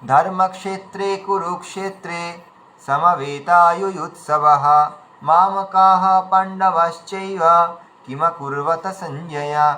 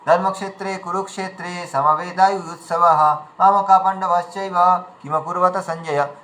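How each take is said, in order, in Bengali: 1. শ্লোকটি তার অংশগুলোর মাঝে বিরাম দিয়ে পড়া হয়। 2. শ্লোকটি কোনো বিরাম ছাড়াই একটানা পড়া হয়। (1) "বিরামকে বিরামের মতো কিন্তু আমাদের বের করতে হবে আমাদের আওয়াজে" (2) "তাহলে ওখানে কোথায় বিরাম রয়েছে আমরা বুঝতে পারছি না"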